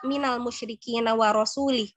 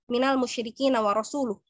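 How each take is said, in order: First: The last word ends with an 'i' vowel. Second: The last word ends with a 'u' vowel. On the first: God disowns the idolaters and the Messenger. The speaker calls it wrong. "Yang satu yang salah, yang wa rasulih" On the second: God and the Messenger disown the idolaters. The speaker calls it right. "Yang seharusnya"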